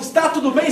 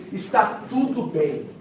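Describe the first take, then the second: First: "Está tudo bem?" asked with a rising tune at the end; asking. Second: Calm reply. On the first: The servant asking the mother if all is well, with a rising question tune. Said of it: "quando Geazi pergunta". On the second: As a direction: say "Está tudo bem" slowly, unshaken. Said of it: "sabe o que que essa mulher diz?". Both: Retold or imitated.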